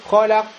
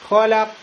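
No difference in how they are said.

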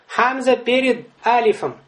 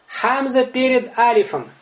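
The two takes are said the same way.

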